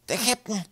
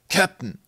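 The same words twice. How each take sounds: First: High-pitched urgent hiss; hissed warning. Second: Loud, higher-pitched glad greeting; delighted call. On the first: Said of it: "zischte er". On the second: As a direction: call out, pleased to see them. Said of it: "rief Tim erfreut". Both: A narrator's reading.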